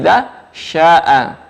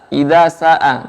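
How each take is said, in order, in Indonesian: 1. Kata kedua dimulai dengan bunyi sh. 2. Kata kedua dimulai dengan bunyi s biasa. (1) "tapi idza sya'a" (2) "Jangan dibaca sa"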